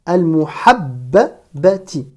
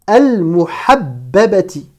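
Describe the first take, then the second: No difference in how they are said.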